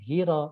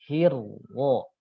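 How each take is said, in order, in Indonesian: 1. Bunyi r pendek dan tunggal. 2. Bunyi r dirangkap dan ditahan lebih lama. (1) "jangan datar" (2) "tapi hirwo"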